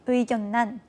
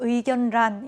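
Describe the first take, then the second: First: The middle consonants are both pronounced as n. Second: An n is followed by a separate l sound. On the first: The speaker calls it right. "의견난, 임진난으로 발음" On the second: The speaker calls it wrong. "계속 의견란, 임진란으로 읽으시는 분들이 계세요. 네, 절대 안 됩니다"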